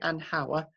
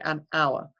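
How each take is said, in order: First: The h sound at the start is pronounced. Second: The h sound at the start is silent. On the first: The speaker calls it wrong. "We don't say an hour" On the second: The speaker calls it right. "we say an hour"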